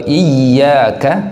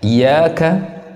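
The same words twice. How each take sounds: First: The y sound is clearly doubled and held. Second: The y sound is short and single. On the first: The speaker calls it right. "Tasydid pada daripada huruf ya ini harus betul-betul jelas" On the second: The speaker calls it wrong.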